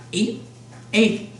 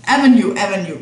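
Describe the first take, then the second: First: Ave said as the single syllable "av", like a word; misread abbreviation. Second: "Avenue" said in full as three syllables, av-e-nue; corrected reading. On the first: Reading the street sign aloud, puzzling over Ave. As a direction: sound out "Ave" as one short word instead of Avenue. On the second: Correcting the street sign reading, saying Avenue in full. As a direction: fix it, spelling out Avenue fully. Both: Shown as a demonstration. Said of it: "That's, that's what that means".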